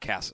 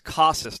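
First: The name is said with an anglicized vowel. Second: The name is said like Spanish casas. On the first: The speaker calls it wrong. "not Casas" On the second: The speaker calls it right. "It's Casas"

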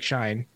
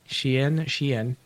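First: The name is said like the word shine. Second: The name is not said like shine. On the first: The speaker calls it wrong. "It looks like Shine" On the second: The speaker calls it right. "but I'm told it's pronounced Shein"

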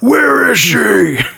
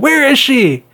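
First: It is said in a deep, gravelly voice. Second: It is shouted in a plain, unroughened voice. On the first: "You could have put gravel in his voice and it could have been Batman" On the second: "all he does is scream at people"

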